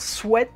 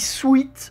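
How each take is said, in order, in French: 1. La voyelle est courte, comme dans 'bet'. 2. La voyelle est longue, comme dans 'eat'. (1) "dire sweat" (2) "je dis sweat au lieu de"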